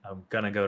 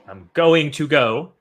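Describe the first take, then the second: First: Going to is reduced and blended into gonna. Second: Going to is said as full separate words. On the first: The speaker calls it right. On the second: The speaker calls it wrong.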